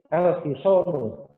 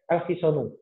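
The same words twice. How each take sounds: First: The second vowel is drawn out long. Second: The second vowel is said short. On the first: The speaker calls it right. "tapi al-hisonu" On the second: The speaker calls it wrong. "Kita tidak mungkin membacanya al-hisonu"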